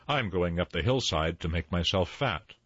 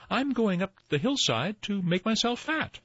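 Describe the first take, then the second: First: Not so small voice. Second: High-pitched little goat voice; tiniest billy goat. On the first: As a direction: middle goat, in an everyday pitch. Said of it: "did not have such a small voice". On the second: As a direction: pipe up as the smallest goat. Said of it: "said the tiniest billy goat Gruff". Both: A narrator's reading.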